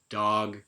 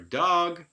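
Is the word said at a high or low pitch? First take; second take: low; high. First: The word is said at a low pitch. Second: The word is said at a high pitch. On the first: "the F zero changes there from low to high" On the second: "the F zero changes there from low to high"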